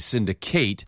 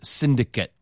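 First: It uses the verb pronunciation of the word. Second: It uses the noun pronunciation of the word. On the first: The word is used as a verb. "If you want to use the verb form, then yeah, I would say syndicate" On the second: The word is used as a noun. "But as a noun, it is syndicate"

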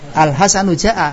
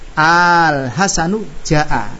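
First: The opening vowel is short, like the plain statement. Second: The opening vowel is drawn out long. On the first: It sounds the same as the statement. The speaker calls it wrong. "Kalau hamzah istifham ini dibaca sama dengan hal" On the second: It is heard as a question. The speaker calls it right. "Ini hamzah ketemu alif, mad apa enggak? Mad"

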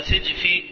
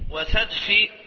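First: The first vowel is i, as in sijf. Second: The first vowel is a, as in sajf. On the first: "كلاهما صحيح، تفتح وتكسر" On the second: "كلاهما صحيح، تفتح وتكسر"

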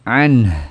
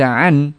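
First: The word ends with an audible breathy outflow. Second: The word ends on n without breathy outflow. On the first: The speaker calls it right. "haknya ditampakkan ... mengalir suaranya" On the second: The speaker calls it wrong. "Jangan dibaca an"

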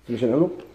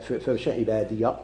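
First: The final ya is pronounced without any vowel. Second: The final ya is pronounced with an 'a' vowel. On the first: The reader stops on this word. "إذا نقف فبشر عبادي" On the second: The reader continues without stopping. "غنثبتوها مفتوحة كيما يقولوا فبشر عبادي في الوصل"

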